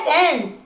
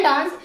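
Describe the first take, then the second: First: डांस said as "dense", with an "e" vowel; short "eh" sound in डांस; corrected front vowel. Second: डांस with a long open "aa"; common broad vowel. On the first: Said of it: "लेकिन होता है डांस". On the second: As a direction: say डांस as "daans". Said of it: "वैसे बोलते हैं डांस". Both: Shown as a demonstration.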